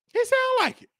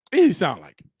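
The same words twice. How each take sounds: First: High camp falsetto repeat. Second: Said in the usual way. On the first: Pretend. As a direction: toss the line up high and sassy.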